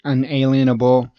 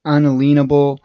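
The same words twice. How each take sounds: First: Unalienable said un-AY-lee-en-able, stressed on AY; usual pronunciation. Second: Unalienable said un-a-LEEN-able, stressed on LEEN; alternate pronunciation. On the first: Host giving the way they always heard the word, usual pronunciation. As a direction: say "unalienable" with a long AY, like "alien". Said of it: "I've always heard it". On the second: Host showing how some others say the word, alternate pronunciation. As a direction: say "unalienable" with a long EE, like "lean". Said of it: "some will say unle". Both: Shown as a demonstration.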